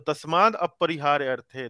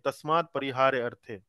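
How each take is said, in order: First: An 'a' vowel is heard before 'parihārya'. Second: No 'a' vowel is heard before 'parihārya'.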